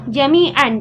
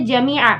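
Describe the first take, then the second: First: The word ends with an n sound. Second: The word ends with a long a vowel. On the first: The speaker calls it wrong. "kita tidak membaca lagi jami'an" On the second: The speaker calls it right. "tapi kita membaca jami'a"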